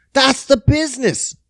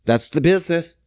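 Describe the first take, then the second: First: "That's the business" pushed up high; high-pitched catchphrase. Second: Said in the usual way. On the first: Acted. Man sums up for viewers, high emphatic catchphrase. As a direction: repeat "That's the business" in a raised voice.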